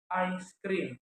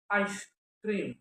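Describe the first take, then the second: First: Slow "ice cream" said as I scream, break before the s; juncture demonstration. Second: "ice cream" with the break after "ice"; juncture demonstration. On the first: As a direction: stretch the first vowel of "ice cream", join s to "cream". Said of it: "ice cream and I scream". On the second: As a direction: split it as "ice", then "cream". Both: Shown as a demonstration.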